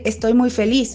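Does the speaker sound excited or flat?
flat. It is said flatly, without visible happiness. The happiness is claimed but not felt. "Pues sí, pero no se nota"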